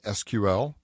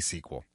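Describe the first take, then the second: First: Each of the three letters is said separately. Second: It is said as one word, like 'sequel'. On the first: "just use the acronym" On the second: "I say S Q L"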